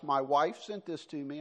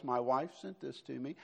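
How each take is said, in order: First: Said in the usual way. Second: Wife stressed, with a rising tune on it. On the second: Shown as a demonstration. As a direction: lean on the word wife and lift it. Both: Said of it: "I want to emphasize".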